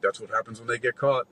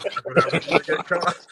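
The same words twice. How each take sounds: First: So casual. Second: Laughing through the casual line. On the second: Imitating the bouncer's casual remark, laughing. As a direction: retell it cracking up, higher. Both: Retold or imitated. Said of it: "that is just so casual".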